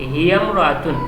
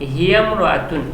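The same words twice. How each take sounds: First: The i vowel is dropped, linking the words. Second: The same.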